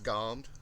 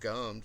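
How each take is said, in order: First: The vowel sounds like the one in 'gone'. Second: The vowel sounds like the one in 'gum'. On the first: It is the traditional way of saying it. "but it was always gommed" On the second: Many people say it this way nowadays. "a lot of people these days pronounce it gummed"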